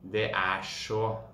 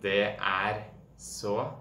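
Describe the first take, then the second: First: The r and s merge into a sh sound. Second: The r and s are pronounced separately. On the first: "Sj. Det kommer inn en sånn sj-lyd når du har R og S" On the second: "Man kan enten si det er så"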